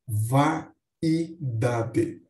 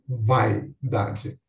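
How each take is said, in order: First: The first vowels split into two syllables. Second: The first vowels blend into one syllable. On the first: "Mas também podemos pronunciar" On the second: "como um ditongo"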